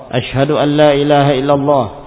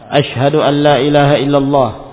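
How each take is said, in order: Both takes have the same delivery.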